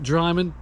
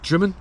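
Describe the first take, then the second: First: The first syllable rhymes with 'eye'. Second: The first syllable rhymes with 'him'. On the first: The speaker calls it wrong. "I've been pronouncing it wrong" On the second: The speaker calls it right. "It's Drimmen"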